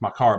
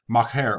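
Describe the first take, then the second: First: "makar" said as mah-KAR; self-corrected "makar", second vowel as in "car"; corrected pronunciation. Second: "makar" said as mah-KAIR; mistaken pronunciation. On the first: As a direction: end "makar" with an open "ar" sound. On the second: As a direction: end "makar" with an "air" sound. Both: Real, not acted. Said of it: "well, actually it's makar".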